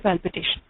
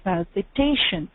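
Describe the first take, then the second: First: All syllables are even, with no stress. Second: The second-last syllable carries clear stress. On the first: The speaker calls it wrong. "the whole word at the same speed without any stress on a particular part" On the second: The speaker calls it right. "the stress is on the um, uh, second last syllable there"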